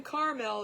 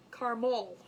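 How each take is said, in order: First: Caramel as CAR-mel, no middle A; two-syllable caramel. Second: Caramel as CAR-mole, rounded ending; squashed caramel. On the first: Host relaying Jude's point, caramel as CAR-mel. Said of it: "it's not even caramel". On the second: Host echoing Jude's version, caramel as CAR-mole. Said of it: "Jude said it best". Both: Retold or imitated.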